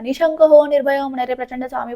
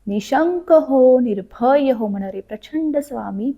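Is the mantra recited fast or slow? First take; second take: fast; slow. First: The words are rushed together quickly. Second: Each word is said slowly and clearly. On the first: The speaker calls it wrong. "असं नाही" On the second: The speaker calls it right. "व्यवस्थित म्हणा, प्रत्येक शब्द उच्चारा"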